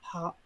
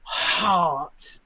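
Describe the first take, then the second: First: The word is cut off before its end. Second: The word is stressed and fully pronounced. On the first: The listener might doubt what was heard. "that's not finishing the word" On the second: The word is unmistakable. "Really accentuated the word so you wouldn't miss it"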